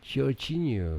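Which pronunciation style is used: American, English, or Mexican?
English. The name is said with a British English pronunciation. "Kalau Inggris"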